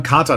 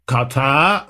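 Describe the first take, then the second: First: Said in the usual way. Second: "Katar" stretched out slowly, rough Saxon attempt; attempted Saxon accent. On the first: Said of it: "dann wird da irgendwann Kater draus". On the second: Shown as a demonstration. Podcaster showing how Katarrh became Kater, tentative Saxon accent. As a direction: try "Katar" in a makeshift Saxon accent, drawn out. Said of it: "Ich kann nun Sächsisch echt nicht gut nachmachen".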